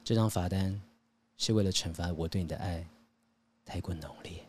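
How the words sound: It is said in a put-on, swooning voice.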